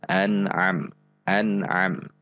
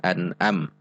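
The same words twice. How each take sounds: First: An'am with a squeezed mid-throat ain on the second A. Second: An'am with a simple glottal stop before AM; hamzah for ain. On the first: Teaching learners the makhraj of ain, throaty an'am. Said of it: "membacanya di tengah tenggorokan". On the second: Showing learners what not to read, hamzah-style an'am. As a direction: say "an'am" with no throat squeeze, just a catch. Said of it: "tidak dibaca an'am". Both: Shown as a demonstration.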